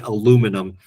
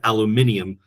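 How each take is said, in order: First: It is said with four syllables, American style. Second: It is said with five syllables, British style. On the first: "Americans say aluminum" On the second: "which is the English pronunciation"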